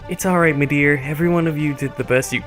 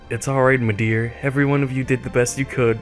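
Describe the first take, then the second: First: It is said in an acted character voice. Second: It is read in a plain own voice.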